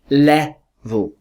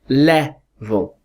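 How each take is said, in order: First: The second syllable is weak and unstressed. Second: The same.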